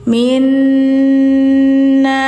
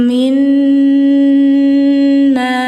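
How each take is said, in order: Both takes have the same delivery.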